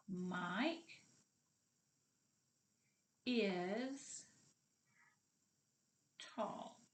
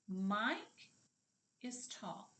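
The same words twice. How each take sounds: First: "Mike", "is", "tall" each set apart by long pauses; teacher spacing out "Mike ... is ... tall"; word by word. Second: Said in the usual way. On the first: Shown as a demonstration. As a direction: say "Mike is tall" very slowly, one isolated word at a time. Sentence repeated word by word.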